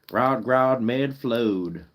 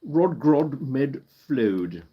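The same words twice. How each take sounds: First: It is said in a Southern American accent. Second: It is said in a British accent. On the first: "Let's say it with a southern accent" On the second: "Let's say that with a British accent"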